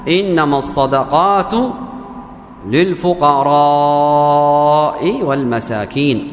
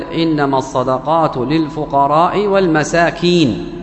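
First: للفقراء with the alif before the hamza drawn out slowly; recited with madd. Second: للفقراء read short, with no lengthening of the alif before the hamza; recited without madd. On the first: Ibn Masud showing the man the recitation with madd. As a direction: stretch للفقراء long and slow, the correct way. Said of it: "فمد بها". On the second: The man reciting the verse to Ibn Masud without madd. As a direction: read للفقراء plainly, clipped, with no stretch. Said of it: "قرأها مرسلة". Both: Retold or imitated.

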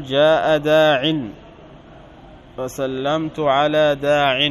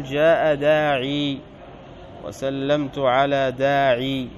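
First: داع said short as daʕ with no final ya, slowly; dropped final ya. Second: داعي ends in a long i, daʕi, slowly; final ya kept. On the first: Teacher showing students the preferred pausal form without ya. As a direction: clip داع to a bare ʕ, no long i. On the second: Teacher showing students the alternative pausal form with the ya. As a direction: hold the ya at the end of داعي. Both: Shown as a demonstration. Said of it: "تقول".

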